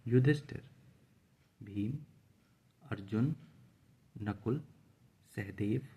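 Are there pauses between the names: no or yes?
yes. Short pauses separate each of the names. Each name is clearly a separate person. The speaker calls it right. "हम बीच बीच में बोलते हुए हल्का हल्का रुक रहे हैं"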